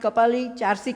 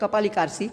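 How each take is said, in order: First: The second word begins with a 'ch' sound. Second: The second word begins with a 'k' sound. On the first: It is how local people say it. "Turkish લોકો તો વળી કપાલી ચારસી કહેતા" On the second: It is read from the spelling. "Spelling પ્રમાણે આપણે બોલીએ તો"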